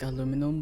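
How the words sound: The word is said the American way. "in America you call it like aluminum"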